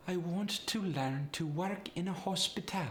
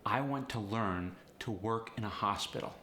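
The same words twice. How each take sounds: First: Higher Polish accent, even syllable stress. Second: Said in the usual way. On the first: Shown as a demonstration. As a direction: Polish accent with slight upward inflection. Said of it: "what added to that Polish sound". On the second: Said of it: "For instance".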